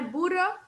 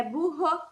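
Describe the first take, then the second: First: Burro with a single tapped R, like Spanish buro; wrong pronunciation. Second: Burro with the double R as a throaty h sound, buho; correct pronunciation. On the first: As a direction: burro said wrongly with a light flicked r. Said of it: "lembrar que não é burro". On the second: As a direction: burro said the Portuguese way, rr breathed like an h. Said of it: "é burro". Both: Shown as a demonstration.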